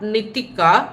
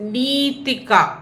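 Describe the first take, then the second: First: The first vowel is short. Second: The first vowel is long. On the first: The speaker calls it wrong. "but it is not Nithika" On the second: The speaker calls it right. "वो नी थोड़ा लंबा है"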